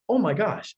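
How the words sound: It is said with lively, surprised expression. The speaker calls it right. "I need to say that like I'm surprised"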